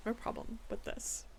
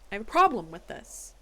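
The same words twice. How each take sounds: First: Whispered, quick grumble to herself; under-breath complaint. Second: Louder, firm complaint with PROBLEM punched; loud objection. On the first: Judge muttering her objection to the report, whispered. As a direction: mutter it fast, almost voiceless. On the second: Judge loudly objecting to the case report, firm. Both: Real, not acted.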